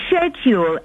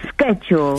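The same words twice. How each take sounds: First: The word begins with a 'sh' sound. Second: The word begins with an 'sk' sound. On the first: This is the British pronunciation. "S H E D D E W L. Schedule's the British way" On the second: This is the American pronunciation. "Whereas American is S K E J A L"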